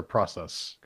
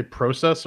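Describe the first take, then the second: First: "process" with open ah, PRAH-sess; short-o pronunciation. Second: "process" with long o, PROH-sess; long-o pronunciation. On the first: Host asks co-hosts which they say, "process" as PRAH-sess. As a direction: say "process" with an ah in the first syllable. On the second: Host asks co-hosts which they say, "process" as PROH-sess. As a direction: say "process" with an oh in the first syllable. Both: Shown as a demonstration. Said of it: "Do you guys say process or process".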